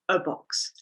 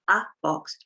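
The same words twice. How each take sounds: First: The 'a' is a quick, weak 'uh'. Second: The 'a' is said fully, like 'ay'. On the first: The speaker calls it right. "we say a box" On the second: The speaker calls it wrong. "We don't say a box"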